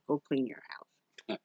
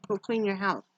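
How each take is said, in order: First: Slow, lower and softer; slow mock-stern command; slow insistent. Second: Said in the usual way. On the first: Real, not acted. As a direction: drag out "go clean your house" like an order.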